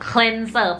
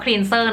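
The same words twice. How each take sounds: First: The first vowel sounds like the vowel in 'bed'. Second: The first vowel sounds like the vowel in 'see'. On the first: "เป็นสระเอนะคะ" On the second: "แน็กขออนุญาตพูดเป็นสระอีนะคะเป็น Thai accent"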